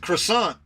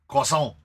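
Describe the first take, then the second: First: The word gets an anglicized American pronunciation. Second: The word gets a French pronunciation. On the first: "because this is America" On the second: "I'll never say"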